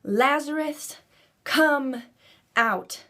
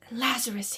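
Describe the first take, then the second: First: High, loud call to the tomb; Jesus shouting at the tomb. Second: Said in the usual way. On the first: Acted. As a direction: call him out of the grave with full force. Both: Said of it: "he shouted with a loud voice".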